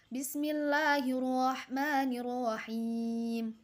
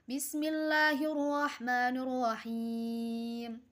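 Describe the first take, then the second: The two takes are said the same way.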